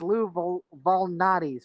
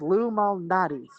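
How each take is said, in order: First: The surname begins with a V sound. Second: The surname begins with an M sound. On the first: The speaker calls it wrong. "I've been mispronouncing it as Lou Vol- Valnati's" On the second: The speaker calls it right. "but it's Lou Malnati's"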